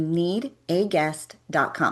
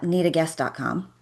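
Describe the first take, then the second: First: The address is said slowly with clear emphasis. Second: The address is rushed through quickly. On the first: The speaker calls it right. "like emphasize need a get" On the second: The speaker calls it wrong. "I don't say uh, need a guest dot com, right? I don't like rush through it"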